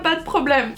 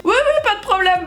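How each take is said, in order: First: Said in the usual way. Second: High, rushed eager yes; overeager yes. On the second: Retold or imitated. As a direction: sound falsely confident and eager. Fake-confident reply to instructor.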